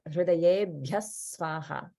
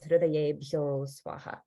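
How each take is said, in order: First: The word ends in 'bhya' before Swaha. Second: The word ends in 'bhyo' before Swaha. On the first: The speaker calls it right. "in front of Swaha, it's pronounced as" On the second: The speaker calls it wrong. "we don't want to pronounce that as"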